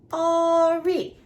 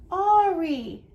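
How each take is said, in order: First: "Ari" as two long, loud beats; split into syllables. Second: Said in the usual way. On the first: Shown as a demonstration. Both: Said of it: "Let's see how many syllables".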